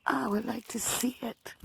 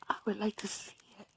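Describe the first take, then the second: First: Said in the usual way. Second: Quick soft whisper. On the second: Real, not acted. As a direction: breathe it out fast under the breath. Repeats wish, then whispers it.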